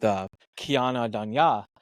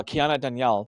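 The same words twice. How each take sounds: First: "Kiana Danya-" said slowly, the last name broken off halfway; stumbled name. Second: "Kiana Danielle" said carefully and whole, stress on the last name; corrected name. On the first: Real, not acted. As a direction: trip over "Danya-" and stop short. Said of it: "I cannot say her last name". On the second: Shown as a demonstration. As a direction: land "Danielle" cleanly this time. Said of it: "you coached me for, like, a half an hour on how to say it".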